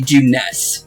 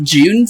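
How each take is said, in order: First: The name is said as two syllables. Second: The name is said as one syllable. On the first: The speaker calls it right. "it's actually Juness" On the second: The speaker calls it wrong. "it's not Junes"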